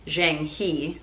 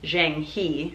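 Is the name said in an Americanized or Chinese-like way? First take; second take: Americanized; Americanized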